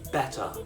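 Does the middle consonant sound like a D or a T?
T. The middle T sounds like a crisp T. "In a British accent, these T's are sounded as T's"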